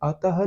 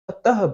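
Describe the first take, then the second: First: The word ends without an audible h breath. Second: The word ends with an audible h breath. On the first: The speaker calls it wrong. "अतः नहीं बोलते" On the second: The speaker calls it right. "अतः बोलते हैं"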